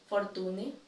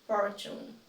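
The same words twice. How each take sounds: First: "Fortune" as for-TOO-neh; "Fortune" in three syllables; mispronounced. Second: "fortune" as FOR-choon; "fortune" in two syllables, silent e; correct pronunciation. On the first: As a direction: say "Fortune" with plain t and sounded final e. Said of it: "I will say each one incorrectly". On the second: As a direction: say "fortune" with ch in the middle. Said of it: "then I'll say it correctly". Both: Shown as a demonstration.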